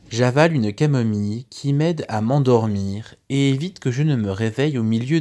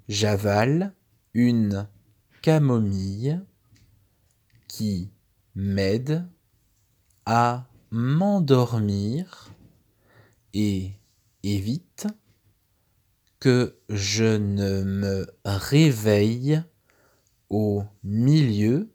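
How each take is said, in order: First: The sentence is read at a quicker pace. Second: The sentence is read at a slower pace.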